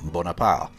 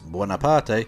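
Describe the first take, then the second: First: The name is said with a French pronunciation. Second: The name is said with an Italian pronunciation. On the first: This is the later French form of the name. "not Bonaparte" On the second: The family name comes from Italy. "His family were Italian in origin, hence Buonaparte"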